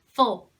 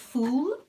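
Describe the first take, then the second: First: The vowel is short and weak, reduced. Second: The vowel is full, like the word full. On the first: The speaker calls it right. "it's full" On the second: The speaker calls it wrong. "it's not full"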